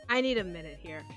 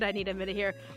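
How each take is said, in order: First: It sounds exasperated, with a weary sigh. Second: It sounds flustered and nervous. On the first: The speaker is fed up and needs a break. The speaker calls it right. "But the exacerbated, literally hands on the bridge of my nose, pinching with a sigh" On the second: The speaker is thrown off balance and embarrassed. The speaker calls it wrong. "Not the flustered"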